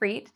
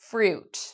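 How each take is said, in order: First: The vowel is an ee sound. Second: The vowel is an oo sound. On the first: The speaker calls it wrong. "pronounce the I as a E sound. It's not freet" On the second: The speaker calls it right. "It's fruit"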